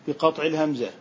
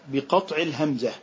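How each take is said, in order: The two takes are said the same way.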